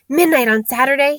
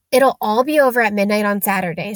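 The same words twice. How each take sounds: First: Higher, startled hoarse question; raised, hoarse disbelief. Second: Said in the usual way. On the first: A narrator's reading. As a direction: echo it hoarsely in alarm. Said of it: "he said in a hoarse voice". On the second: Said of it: "said Hermione".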